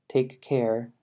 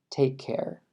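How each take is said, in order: First: The two k sounds are pronounced separately. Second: The two k sounds merge into one. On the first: The speaker calls it wrong. "En vez de decir take care" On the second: The speaker calls it right. "va a ser más take care ... se van a combinar"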